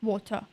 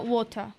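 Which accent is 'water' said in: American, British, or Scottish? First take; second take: British; British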